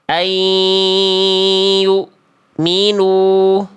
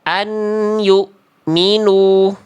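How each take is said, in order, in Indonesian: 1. Bunyi n melebur ke y yang sengau dan ditahan. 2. Bunyi n yang jelas terdengar sebelum y. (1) "dileburkan ke huruf ya, lalu ketika masuk ke huruf ya ditahan dulu" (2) "Nggak boleh kita baca an yu minu"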